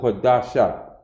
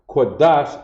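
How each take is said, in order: First: The word ends with a final ah sound. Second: The word ends without a final ah sound. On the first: The speaker calls it wrong. "instead of Quadasha" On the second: The speaker calls it right. "becomes Quadash"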